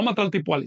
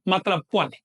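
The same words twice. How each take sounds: First: "Matlaltipuali" with an extra "ti" syllable before "puali"; wrong form. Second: "Matlac Puali" with no "ti" between the parts; corrected form. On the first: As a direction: run "Matlaltipuali" together, keeping the linking "ti". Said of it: "No Matlaltipuali, sino Matlac Puali". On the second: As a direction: close "Matlac" on its consonant, then "Puali". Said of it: "sino Matlac Puali". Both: Shown as a demonstration.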